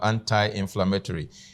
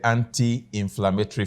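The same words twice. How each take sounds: First: It is said in a North American accent. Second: It is said in a Nigerian accent. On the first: "I'm speaking North American English now" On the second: "in Nigeria, we say"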